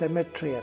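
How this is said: It is said with a British pronunciation. "Britishers సెమెట్రీ అంటారు"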